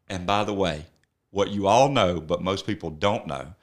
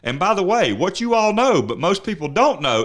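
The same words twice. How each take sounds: First: It is read a little more slowly. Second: It is read at a normal pace.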